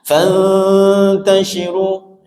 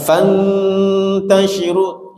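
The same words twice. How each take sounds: First: The n is a hidden nasal with a loose tongue. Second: The n is a clear n with the tongue pressed. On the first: The speaker calls it right. "renggangkan ujung lidah kita ke gusinya, karena ikhfa" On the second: The speaker calls it wrong. "tidak fatal salahnya, cuman kurang sempurna aja ikhfa-nya"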